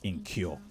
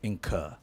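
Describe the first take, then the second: First: The last syllable sounds like 'cure'. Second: The last syllable sounds like 'cur'. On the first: The speaker calls it wrong. "not incur ... It doesn't sound like curing" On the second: The speaker calls it right. "the word is incur"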